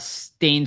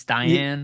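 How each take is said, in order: First: The name is said as one syllable, like 'stain'. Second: The name is said as two syllables, 'sty-an'. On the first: "I'm probably saying it wrong" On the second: "Styan or something like that"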